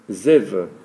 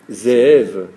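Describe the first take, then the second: First: The word is said quickly with one short vowel. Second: The word is said with a lengthened, drawn-out vowel. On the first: The speaker calls it wrong. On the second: The speaker calls it right.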